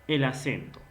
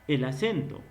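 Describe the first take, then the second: Both takes have the same delivery.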